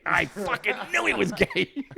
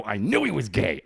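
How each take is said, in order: First: High, drawn-out triumphant repeat; mock-triumphant, pitched way up; emphatic vindication. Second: Retold exclamation of being proved right; a touch of vindication; vindicated. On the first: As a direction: crow it slowly, breaking into laughter. Escalated repeat of the same reaction. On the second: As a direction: announce a mildly triumphant hunch. Reacting to the girlfriend's confession.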